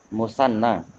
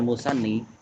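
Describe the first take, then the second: First: The word ends with an 'a' vowel. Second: The word ends with an 'i' vowel. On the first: The speaker calls it right. "Ini harusnya musanna ya" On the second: The speaker calls it wrong. "bukan musanni"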